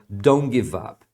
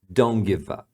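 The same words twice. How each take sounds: No difference in how they are said.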